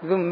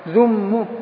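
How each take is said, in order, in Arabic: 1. تنتهي الكلمة بكسرة قصيرة. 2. تنتهي الكلمة بضمة قصيرة. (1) "ثالثا الكسر هو الأصل في التخلص من تقاء ساكنين" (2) "الآن رواية الضم للإتباع"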